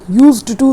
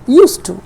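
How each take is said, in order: First: The d sound in 'used' is pronounced. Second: The d sound in 'used' is silent. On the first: The speaker calls it wrong. "यूज्ड to नहीं है" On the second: The speaker calls it right. "उसमें डी silent होता है"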